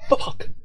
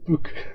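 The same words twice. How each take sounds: First: The vowel is a short 'uh' sound. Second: The vowel is an 'oo' sound. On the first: The speaker calls it right. "it's fuck" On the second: The speaker calls it wrong. "It's not fuck. ... It's not a double O"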